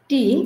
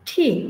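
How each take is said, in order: First: The first consonant has no puff of air. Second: The first consonant has a puff of air.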